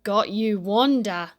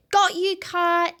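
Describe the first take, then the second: First: Lower, ominous turnaround; the kite springs its trap; sly kite voice. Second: High, loud gleeful grab; triumphant Wanda. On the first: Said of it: "said the kite". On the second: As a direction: gloat like you've won it. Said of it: "she said". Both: Acted.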